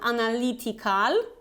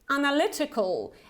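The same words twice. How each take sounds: First: The stressed vowel is not a short 'eh'. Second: The stressed vowel is a short 'eh'. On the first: The speaker calls it wrong. "not analytical" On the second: The speaker calls it right. "you have this short E here, which is more like eh"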